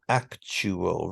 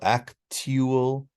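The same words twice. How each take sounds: First: The middle consonant is a 'ch' sound. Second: The middle is a 't' followed by 'y'. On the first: The speaker calls it right. "It's a ch sound" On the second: The speaker calls it wrong. "it might sound sort of okay with tia"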